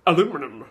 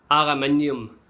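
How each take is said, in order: First: Aluminum as a-LOO-mi-num, American; mocking the Yankee aluminum. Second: Aluminium in five syllables, al-u-MIN-i-um; British aluminium. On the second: Shown as a demonstration. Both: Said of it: "not aluminum".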